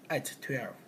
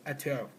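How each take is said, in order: First: The t sound is pronounced twice, separately. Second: The t sound is pronounced once, linked. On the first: The speaker calls it wrong. "we don't say at twelve" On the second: The speaker calls it right. "we just say at twelve"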